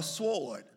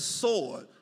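First: "sword" with the W pronounced; W sounded. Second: "sword" said as "sord", no W; silent W. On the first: Preacher showing the mistake, "sword" with its W sounded. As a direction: say "sword" wrongly, as s-word with a W. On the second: Preacher correcting the congregation, "sword" with a silent W. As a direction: drop the W in "sword". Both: Shown as a demonstration. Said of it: "The W is silent".

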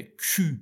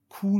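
First: کیو with a rounded ü after the k; French Q. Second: کو with a plain Persian oo; wrong Q with oo. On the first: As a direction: say کیو as k plus tight-lipped ü. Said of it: "بعدش هم صدای اوه". (کیو با صدای او فرانسوی) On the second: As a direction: say the mistaken کو, back oo vowel. (کو با واو فارسی) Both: Shown as a demonstration.

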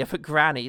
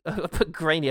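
First: "granny" said with a short flat a, gran-nee. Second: "grainy" said with a long ay vowel, grey-nee. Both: Shown as a demonstration.

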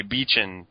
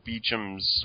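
First: Beechan ending in an n sound; name with N. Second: Beecham's ending in a clear m; unsure name with M. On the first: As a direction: Beechan said with a final n. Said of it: "I think it's Beecham". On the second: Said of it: "I don't know if it's an N or an M". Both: Shown as a demonstration.

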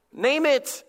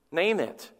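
First: NAME IT pitched high, urgently; emphatic command. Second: Said in the usual way. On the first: Real, not acted. Preacher urging congregation to name their sin, emphatic command. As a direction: drive "Name it" home in a raised pitch. Sermon refrain driven home.

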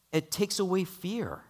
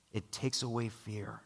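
First: Said in the usual way. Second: Softer repeat. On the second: Acted. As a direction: let the repeat sink in, quietly. Repeated point in the sermon.

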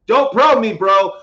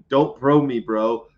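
First: "Don't probe me" yelled much higher and louder; shouted. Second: Said in the usual way. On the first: Pretend. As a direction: shout it out as a mock protest.

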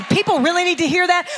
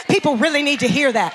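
First: A quick, skeptical question with a rising end; mock the doubter asking it, brisk; doubting question. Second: Said in the usual way. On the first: Preacher mimics a doubting listener, quick skeptical question. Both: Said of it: "You say".

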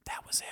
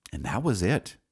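First: Breathy whisper, almost to himself; whispered afterthought. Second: Said in the usual way. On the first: Real, not acted. After hanging up on Kathy for good, a near-silent whisper. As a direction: let the words fall away to a whisper. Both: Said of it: "whispered repeat".

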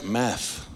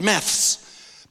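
First: "math" said lower, ending on a bare "th" with no s; American math. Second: "maths" said slowly with a clear final "th-s"; Australian maths. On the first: Pastor contrasting Aussie and American words, saying "math" lower. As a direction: drop the pitch and say just "math". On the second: Pastor contrasting Aussie and American words, saying "maths" slowly. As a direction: lean on "maths" with its th-s ending. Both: Shown as a demonstration. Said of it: "But in America, it's math".

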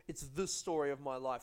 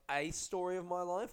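First: "the" said as a full "thee", punched; stress on "the". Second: "a" said as a full "ay", punched; stress on "a". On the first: Comic explains the pimp's subtitle, stressing "the". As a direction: lean on "the" as the one and only. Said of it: "the telling thing is the, the subheading". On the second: Comic explains the book's subtitle, stressing "a" as "ay". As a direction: hit "a" as "ay", pitch raised. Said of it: "So it's not Pimp". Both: Shown as a demonstration.

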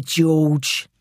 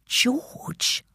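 First: Voiced, taunting London man; intruder's voice. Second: Barely voiced whisper; mouthed. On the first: Intruder calling to the hidden man, taunting voice. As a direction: call the name out as a villain. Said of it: "said the first voice". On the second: Child silently asking Mum in hiding, mouthed whisper. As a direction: whisper it as a question, almost soundless. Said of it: "I mouthed at my mum".

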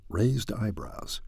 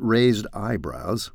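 First: Slow, softer, savoured aside; relishing the phrase. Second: Said in the usual way. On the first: Shown as a demonstration. Vlogger savouring a favourite phrase, slow soft relish. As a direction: roll raised eyebrows out slowly, enjoying it. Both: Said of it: "I love that term".

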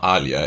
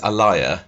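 First: Said in the usual way. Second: "Alia" said like the start of Alliance; Alia as a-LIE-a. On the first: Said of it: "and not Alia". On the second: Shown as a demonstration. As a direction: say "Alia" as a-LIE-a, stressed middle. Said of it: "If her name was Alia".

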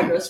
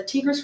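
First: Tigris as TIE-gris, long i; corrected pronunciation. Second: Tigris with short ee, TEE-gris; wrong pronunciation. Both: Real, not acted.

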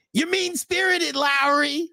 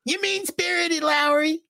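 First: Very high, slow mock whine; Ralph impression. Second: Very high mocking whine; Ralph impression. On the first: Host imitating Ralph scolding Lowry, very high whine. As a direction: squeak it like a mocking Ralph. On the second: Host redoing Ralph scolding Lowry, very high. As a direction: squeak it out like Ralph. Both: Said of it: "trying to do the Ralph accent".

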